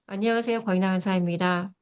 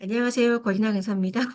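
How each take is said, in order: First: The greeting sounds loud, clear and crisp. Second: The greeting sounds odd, weak and unsure. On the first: The speaker calls it right. "발음을 명확하고 정확하게" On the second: The speaker calls it wrong. "너무 이상하죠, 그죠? 말투도 이상하고"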